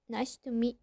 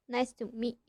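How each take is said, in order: Both takes have the same delivery.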